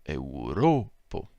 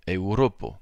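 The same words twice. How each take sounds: First: Europo drawn out very slowly, stress on ro; patient retake of Europo, very slow. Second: Europo slow, weight on ro; careful teacher's Europo, stress on ro. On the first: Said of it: "faut que je recommence". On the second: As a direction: say Europo slowly, leaning on ro. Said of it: "l'accent tonique, lui, se trouve sur le ro". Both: Shown as a demonstration.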